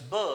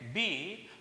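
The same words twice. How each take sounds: First: It is said as a short consonant sound. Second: It is said as the full letter name. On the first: "becomes B in bat" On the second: "that letter when we pronounce, that becomes sound"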